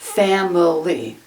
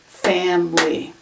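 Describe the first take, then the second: First: The word is said with three syllables. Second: The word is said with two syllables. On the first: "it looks like it should be pronounced family" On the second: "more common for that middle sound to be gone"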